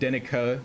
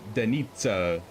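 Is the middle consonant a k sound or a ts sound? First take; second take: k; ts. First: The middle consonant is a plain k sound. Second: The middle consonant is a ts sound. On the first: The speaker calls it wrong. "So it's not like Denica" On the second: The speaker calls it right. "It's like Denitsa"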